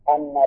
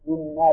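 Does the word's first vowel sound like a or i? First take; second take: a; i. First: The first vowel is an open a sound. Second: The first vowel is a front i sound. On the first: It restates the outcome within the same sentence. "قراءة فتح الهمزة" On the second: It starts a new sentence explaining the outcome. "وكسرها"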